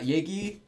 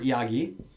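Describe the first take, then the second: First: The word is contracted into two syllables. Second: The word is said in full, three syllables. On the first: This is the usual spoken form. "I think 얘기 is a little better for for conversation" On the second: This is the written form. "If you're writing though, always write 이야기"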